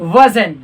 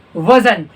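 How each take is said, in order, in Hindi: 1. अंतिम t ध्वनि छोड़ दी जाती है। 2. अंतिम t ध्वनि छोड़ दी जाती है।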